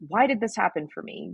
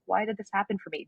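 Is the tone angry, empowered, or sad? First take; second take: angry; sad. First: It is said in an angry tone. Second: It is said in a sad tone.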